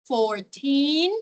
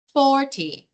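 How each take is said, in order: First: Put-on fourteen with the teen stressed and rising. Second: Forty with for strong and ty falling; stress on for. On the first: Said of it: "a pronúncia do teen é bem pronunciada". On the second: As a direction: hit the front of forty. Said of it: "a primeira parte da palavra é a mais forte". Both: Shown as a demonstration.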